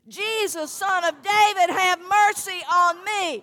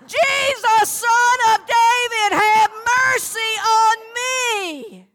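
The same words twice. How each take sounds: First: It is said louder, at medium volume. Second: It is said at the loudest volume.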